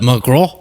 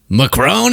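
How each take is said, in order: First: "Macron" as muh-kroh, no final n; French-style open ending on "Macron"; French pronunciation. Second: "Macron" as muh-krone, final n sounded; anglicized pronunciation. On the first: Commentator joking about two Macrons, "Macron" said the French way. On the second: Commentator joking about two Macrons, "Macron" said muh-krone. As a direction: stretch "Macron" with an English long o and n. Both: Acted.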